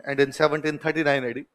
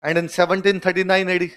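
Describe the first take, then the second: First: Very slow and softer, word by word; teacher repeating the date softly for notes; slow soft dictation. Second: Very slow, each word apart; teacher dictating the date slowly; slow dictation. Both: Shown as a demonstration. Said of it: "लिख लो".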